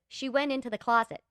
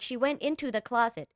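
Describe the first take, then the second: First: It sounds natural, like real speech. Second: It sounds stiffly read aloud from a page.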